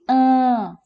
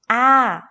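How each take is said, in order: First: The vowel is said through the nose and mouth. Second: The vowel is said through the mouth only. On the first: "ela passa a ter o som de AN" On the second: "com o som normal dela de A"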